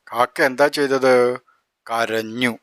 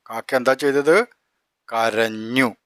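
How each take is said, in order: Both takes have the same delivery.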